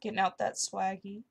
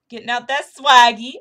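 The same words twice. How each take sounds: First: Said in the usual way. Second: Loud hype shout on swaggy; hyped loud repeat. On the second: Acted. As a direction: belt out swaggy with a big rising swing. Repeats phrase, second louder.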